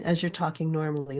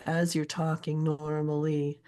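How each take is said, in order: First: Said in the usual way. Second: Slow, metrical "AS you're TALKing NORmally"; "as you're talking normally" slowed to show its stressed and unstressed syllables; alternating stresses. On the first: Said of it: "alternating stressed and unstressed syllables". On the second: Shown as a demonstration. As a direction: beat out every other syllable of "as you're talking normally", slowly. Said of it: "I'm alternating stressed and unstressed syllables".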